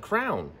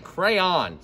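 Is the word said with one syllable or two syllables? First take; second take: one; two. First: It is said as one syllable, like crown. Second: It is said as two syllables, cray-on. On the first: The speaker calls it wrong. "My wife says crown, like crown" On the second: The speaker calls it right. "C-R-A-Y. Cray. On"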